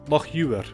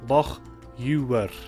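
First: It is said at a normal speaking speed. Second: It is said slowly and carefully. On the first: "I'll pronounce them like I would naturally" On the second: "and then slowly too"

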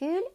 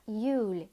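First: The word starts with an audible h sound. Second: The word starts with a y sound, no h. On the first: The speaker calls it wrong. "Літеру «х» ми опускаємо не «хюль»" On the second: The speaker calls it right. "а «юль» – колесо"

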